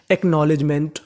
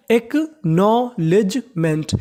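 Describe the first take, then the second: First: Said in the usual way. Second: acknowledgement very slowly, split as एक - नॉ - लेज - मेंट; syllable by syllable. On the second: Shown as a demonstration. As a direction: separate every syllable of acknowledgement. (Acknowledgement का हर हिस्सा अलग, धीरे) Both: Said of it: "एक बार फिर से पढ़ लेते हैं".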